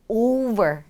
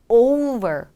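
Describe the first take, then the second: The two takes are said the same way.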